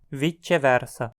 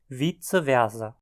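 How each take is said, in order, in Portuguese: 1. Estilo italiano, com o c soando como ch. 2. Estilo alemão, com os sons do latim à maneira alemã. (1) "na região afetada pelo italiano, pronunciada" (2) "em áreas falantes de alemão"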